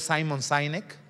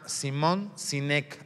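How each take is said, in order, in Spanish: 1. El nombre se pronuncia con sonidos ingleses. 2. El nombre se pronuncia con sonidos españoles. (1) "elegantemente pronunciado" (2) "así como se oye"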